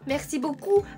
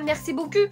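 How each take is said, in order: First: The final vowel is said with tightly rounded lips. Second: The final vowel is said without rounded lips. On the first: The speaker calls it right. "je dois faire cette grimace à chaque fois" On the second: The speaker calls it wrong. "sinon ça devient"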